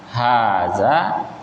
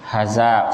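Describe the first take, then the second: First: Both vowels are drawn out long. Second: The vowels are clipped short. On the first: The speaker calls it right. "hanya panjang, haza, ya, zanya juga panjang" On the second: The speaker calls it wrong. "jangan dibaca pendek ya. Haza salah ya"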